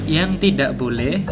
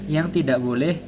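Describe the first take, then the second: No difference in how they are said.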